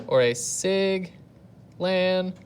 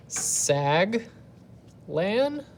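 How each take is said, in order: First: Sig lan said slowly, syllable by syllable; sounding out the right syllables. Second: Sag lan sounded out, with lan pitched up high; the teacher tests the wrong vowel in sag lan; trying out a wrong sounding. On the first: Teacher sounds out the right spelling for the class, slow sig lan. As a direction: stretch out sig then lan carefully. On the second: Teacher sounds out a wrong option for the class, sag lan with a rise. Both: Shown as a demonstration. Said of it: "what we wanna go with is sig".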